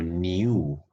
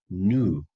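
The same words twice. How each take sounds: First: "new" said slowly as nee-oo; "new" with a y-glide. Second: "new" said slowly as noo; "new" without y-glide. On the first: Teacher showing learners the form they never use, "new" as nyoo. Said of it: "yo nunca digo new". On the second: Teacher showing learners their own habit, "new" as noo. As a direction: say "new" as NOO, straight into the vowel. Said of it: "yo digo new". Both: Shown as a demonstration.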